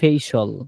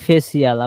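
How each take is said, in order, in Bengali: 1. শেষের অংশে একটি সিলেবল, 'shol' এর মতো। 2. শেষের অংশে দুটি সিলেবল, 'see-al' এর মতো।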